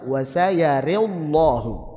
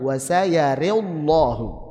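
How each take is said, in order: First: Tilted ra vowel, heavy lam. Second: Tilted ra vowel, heavy lam.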